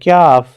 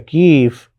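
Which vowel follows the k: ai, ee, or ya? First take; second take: ya; ee. First: The k is followed by a y glide. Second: The vowel after k is a long ee. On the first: "कुछ लोग इसको पढ़ते हुए कहते हैं क्याफ" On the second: "या कीफ"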